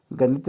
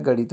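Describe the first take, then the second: First: गणित with a dental n; wrong form. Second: गणित with a retroflex, flapped ण; correct form. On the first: Teacher showing the common mistake, गणित with plain n. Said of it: "गणित नहीं होता है". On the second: Teacher correcting spelling, गणित with retroflex ण. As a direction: curl the tongue for ण in गणित. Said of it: "गणित होता है". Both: Shown as a demonstration.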